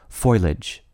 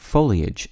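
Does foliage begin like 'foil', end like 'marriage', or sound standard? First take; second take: foil-like; standard. First: The first syllable sounds like the word foil. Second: The ending is two syllables, ee-ij. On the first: "even more irksome to some people" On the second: "the word foliage"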